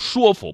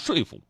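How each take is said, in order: First: The first syllable is shuō, level tone. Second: The first syllable is shuì, falling tone. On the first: This is the reading the modern dictionary accepts. The speaker calls it right. "这个词只能读说服" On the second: This is the older reading once taught in school. The speaker calls it wrong. "不能读说服"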